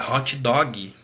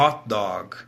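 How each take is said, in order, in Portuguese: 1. Isso é dito com sotaque do português brasileiro. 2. Isso é dito com sotaque nativo do inglês. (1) "O brasileiro fala" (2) "a pronúncia é"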